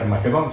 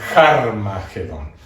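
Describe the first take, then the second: First: The word begins directly with a vowel. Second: The word begins with a breathy h sound. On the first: The speaker calls it wrong. "no se dice Armagedón" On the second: The speaker calls it right. "se dice Harmagedón"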